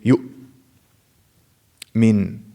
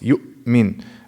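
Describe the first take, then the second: First: The glottal stop closes and stays shut. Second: The glottal stop closes then releases smoothly. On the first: The speaker calls it wrong. "it's not like you just close it and that's it" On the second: The speaker calls it right. "It, it reopens for the other letters to flow"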